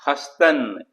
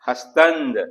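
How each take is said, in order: First: The word ends in n, no d. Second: The word ends with a d sound. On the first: This is the everyday spoken form. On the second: This is the formal written form.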